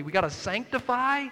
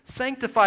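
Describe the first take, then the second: First: Said in the usual way. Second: Sanctify said louder and higher, falling; Sanctify pronounced as a loud, falling announcement; stressed Sanctify. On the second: Shown as a demonstration. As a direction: punch out the word Sanctify. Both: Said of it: "to separate".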